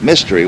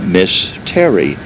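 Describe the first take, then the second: First: It is said fast, run together as one word. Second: It is said slowly as two separate words. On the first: It sounds like the word for a puzzle. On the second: It is a woman's name and title.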